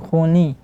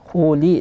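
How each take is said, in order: First: The second syllable sounds through the nose. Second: The second syllable is light with no nasal sound. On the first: The speaker calls it wrong. "yang ada bunyi di hidung, tidak boleh" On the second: The speaker calls it right. "li tipis"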